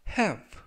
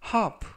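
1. 이 단어는 미국식 발음입니다. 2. 이 단어는 영국식 발음입니다. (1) "미국식 발음이 되겠습니다" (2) "영국식 발음이 되고요"

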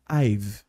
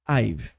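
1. As palavras se juntam em uma sílaba que termina em v. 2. As palavras se juntam em uma sílaba que termina em v.

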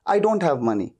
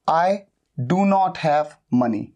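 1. 'Do' और 'not' एक ही syllable में मिल जाते हैं। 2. 'Do' और 'not' अलग-अलग शब्दों की तरह बोले जाते हैं। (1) "फास्ट बोलने के लिए कैसे बोला जाता है" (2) "नेगेटिव सेंटेंस"

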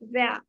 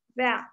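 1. अंतिम r ध्वनि छोटी रखी जाती है। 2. अंतिम r ध्वनि छोटी रखी जाती है।

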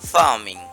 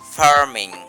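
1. কনসোনেন্টের আগে r টি নীরব। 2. কনসোনেন্টের আগে r টি উচ্চারিত হয়। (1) "ব্রিটিশ সেটাকে উচ্চারণ করবে না" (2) "আমেরিকানরা বলবে ফার্মিং"

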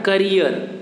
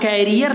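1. पहला स्वर एक छोटी 'uh' ध्वनि है। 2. पहला स्वर एक खुला 'ae' ध्वनि है। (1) "इसको कहेंगे क्या? करियर।" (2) "लेकिन आप कैरियर नहीं कह सकते। यहाँ ए का मंत्र नहीं लगाएंगे"

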